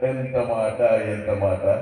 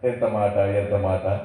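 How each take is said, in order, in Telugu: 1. ఇది అదనపు నాటకీయ శబ్దాలతో, ఉద్వేగంగా చెప్పబడుతుంది. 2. ఇది స్థిరంగా, కొలిచిన నాటకీయ స్వరంతో చెప్పబడుతుంది. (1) "అది వేరే ఉంటుంది ... ఇలాంటి సౌండ్లు ఎక్కువ వస్తూ ఉంటాయి" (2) "ఈ విధంగా ఉంటుంది"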